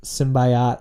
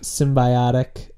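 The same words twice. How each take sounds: First: Symbiote said sim-bye-OTE, crisp; symbiote, short. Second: Symbiotic drawn out slowly, sim-bye-OT-ik. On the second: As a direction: stretch every syllable of symbiotic. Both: Shown as a demonstration. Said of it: "contrasting pronunciations".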